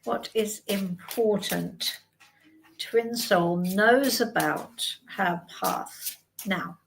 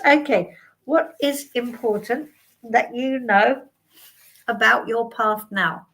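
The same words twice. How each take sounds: First: Slow, soft asking the cards; slow solemn question. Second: Said in the usual way. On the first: Shown as a demonstration. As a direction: put the question to the cards slowly. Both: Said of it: "let's ask then".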